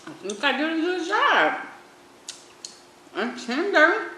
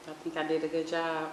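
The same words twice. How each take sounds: First: High, loud proud exclamation; excited. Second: Said in the usual way. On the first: Real, not acted. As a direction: burst out proud of it. Repeats line excitedly.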